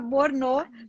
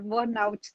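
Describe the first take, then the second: First: It is said like a French word, 'borno'. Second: It is said like an English word, 'burnout'. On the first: The speaker calls it wrong. "eu até achava que era Borno, parecia francês, mas não é" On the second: The speaker calls it right. "É burnout que se pronuncia"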